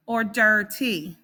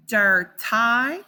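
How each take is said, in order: First: "dirty" ending with the long E sound, like "dirt-ee". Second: "dirty" ending with the long I sound, like "dirt-eye". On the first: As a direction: say "dirty" with a clear E at the end. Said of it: "or the E sound". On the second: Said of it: "that Y can make the I sound". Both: Shown as a demonstration.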